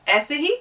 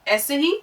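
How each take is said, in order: No difference in how they are said.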